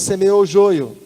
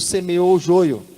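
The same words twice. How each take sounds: First: It is said louder and stronger. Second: It is said at normal volume.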